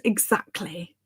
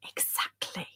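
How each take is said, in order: First: Said in the usual way. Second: Soft, voiceless whisper; hushed, conspiratorial repeat; whispered agreement. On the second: Real, not acted. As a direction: whisper "Exactly" for emphasis.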